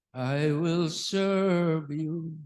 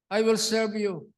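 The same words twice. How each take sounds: First: Slow, drawn-out, low sung line; singing. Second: Said in the usual way. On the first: Shown as a demonstration. Preacher recalls a song for the congregation, singing. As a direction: sing it slowly, holding the notes. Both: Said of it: "Di ba may awit?".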